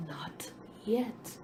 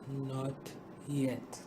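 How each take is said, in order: First: Soft whisper. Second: Low, soft and gentle; a calm, smiling reply, low and soft. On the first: Master quietly answering the dizzy dough, a soft whisper. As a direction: breathe it out quietly. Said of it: "and said quietly". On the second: Master answering the frightened grain, low gentle calm. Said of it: "he only smiled and gently said". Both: A narrator's reading.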